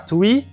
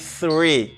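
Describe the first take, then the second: First: It begins with a t sound. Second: It begins with a th sound. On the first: The speaker calls it wrong. "C'est pas T, c'est pas three" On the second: The speaker calls it right. "C'est three. Langue entre les deux"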